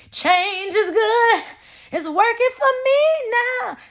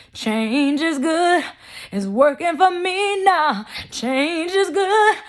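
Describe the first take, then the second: First: Much higher, slow sung gospel line; singing gospel. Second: Sung, higher, slow and louder gospel line; raspy preacher singing. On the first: Shown as a demonstration. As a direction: sing it like a gospel chorus. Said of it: "I can't sing". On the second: Retold or imitated. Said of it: "that's how he sounds... raspy... preacher type voice".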